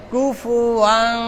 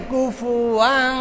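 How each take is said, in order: First: কুফুয়ান very slow, nasal hum held through; correct ghunna. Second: কুফুয়ান read without the nasal hum; wrong reading. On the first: Teacher gives students the right reading, slow nasal. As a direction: stretch কুফুয়ান slowly with a long ghunna. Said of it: "তবে". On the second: Teacher shows students the mistaken reading, no nasal. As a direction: say কুফুয়ান flatly, no ghunna. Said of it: "ভুল হয়ে যাবে". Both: Shown as a demonstration.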